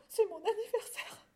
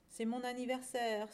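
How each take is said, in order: First: Very high, acted tearful voice; sobbing little lamb. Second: Mild sigh of a poor cow; understated sighing. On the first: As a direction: sob it out as a small lamb. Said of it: "sanglota le petit agneau". (petit agneau qui sanglote) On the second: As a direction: sigh it wearily, without raising the voice. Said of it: "soupira la pauvre vache". (soupir discret de vache) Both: A narrator's reading.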